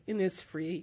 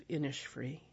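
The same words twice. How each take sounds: First: Innisfree with a plain s sound in the middle, IN-nis-free; old pronunciation. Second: Innisfree with a sh sound in the middle, IN-nish-free; correct pronunciation. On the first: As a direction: say Innisfree as ss, not sh. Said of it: "I always thought it was". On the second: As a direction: say Innisfree softened to sh, like Irish. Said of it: "I know now that it's". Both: Shown as a demonstration.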